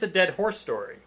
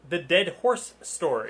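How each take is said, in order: First: The words are slurred and poorly enunciated. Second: The words are carefully and clearly enunciated. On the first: The speaker calls it wrong. "You did not enunciate very well" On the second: The speaker calls it right. "That is much clearer"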